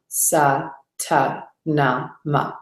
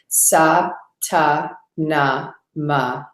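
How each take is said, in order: First: It is spoken in a full, audible voice. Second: It is spoken in a full, audible voice.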